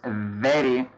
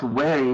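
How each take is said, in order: First: The word begins with a v sound. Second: The word begins with a w-like sound. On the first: The speaker calls it right. "it's very" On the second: The speaker calls it wrong. "No, it's not very"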